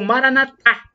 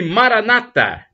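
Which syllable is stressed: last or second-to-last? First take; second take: last; second-to-last. First: The stress is on the last syllable. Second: The stress is on the second-to-last syllable. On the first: This is how Catholics say it. "como dizem os católicos, com a tônica na última sílaba" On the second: This is how Protestants say it. "como dizem os protestantes, com a tônica na penúltima sílaba"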